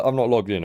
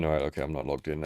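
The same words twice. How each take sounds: First: Said in the usual way. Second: Fast, softer muttered repeat; muttered to himself. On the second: Real, not acted. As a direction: mumble it quickly under your breath.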